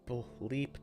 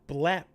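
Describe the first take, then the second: First: The word is said as bleep. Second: The word is said as blep. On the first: The speaker calls it wrong. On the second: The speaker calls it right.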